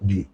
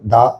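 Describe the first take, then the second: First: The word ends in an 'ee' vowel. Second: The word ends in a short 'uh' vowel. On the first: It comes before a word starting with a vowel. "ভাওয়েলের আগে দি" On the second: It comes before a word starting with a consonant. "কনসোনেন্টের আগে দা"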